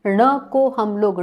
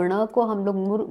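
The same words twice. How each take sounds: First: ण को said slowly and louder, stressing ण; slow emphatic start. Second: Said in the usual way. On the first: Shown as a demonstration. Teacher stressing the letter ण for students, slow and loud. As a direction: lean on ण को and draw it out.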